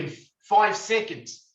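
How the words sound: It is said in a New Zealand accent.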